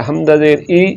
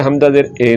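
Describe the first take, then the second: First: हमज़ा ज़ेर ई ending on a pure ee; maroof ee. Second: हमज़ा ज़ेर ए ending on ay; majhool ay. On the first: Teacher spelling the correct vowel, clear ee. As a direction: land on a clear ई. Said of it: "मारूफ पढ़ना है". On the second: Teacher spelling the wrong vowel, ay sound. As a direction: swap the ee for an open ए. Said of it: "नहीं पढ़ना". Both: Shown as a demonstration.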